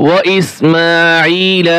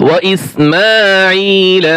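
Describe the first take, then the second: Both takes have the same delivery.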